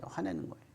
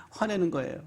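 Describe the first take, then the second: First: 화내는 거예요 whispered, lower and much softer; whispered verdict. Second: Said in the usual way. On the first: Shown as a demonstration. Preacher whispers the verdict to the congregation.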